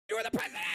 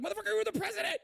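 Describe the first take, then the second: First: Way up high, voice cracking with incredulity; shrieking disbelief. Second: Can't believe what he's hearing; exasperated outburst. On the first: Streamer repeating his point at the screen, shrieking high in disbelief. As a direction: push it to the top of the range. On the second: Streamer yelling at a politician on screen, pitch soaring in disbelief. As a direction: pitch climbing high, incredulous. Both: Real, not acted. Ranting at the clip.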